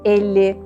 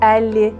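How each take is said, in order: First: The e is closed, with the mouth narrower. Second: The e is open, with the mouth wider. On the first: The speaker calls it right. "Kapalı e sesi ağzın daha az açılması ile çıkar" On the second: The speaker calls it wrong. "Bu kelimeleri şu şekilde söyleseydim"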